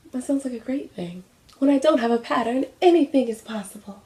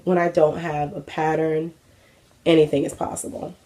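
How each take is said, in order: First: High, put-on self-mocking voice; mock dreamy. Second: Said in the usual way. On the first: Vlogger mocks their own planless sewing idea, high mocking voice. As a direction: parrot your own words in a high, silly voice.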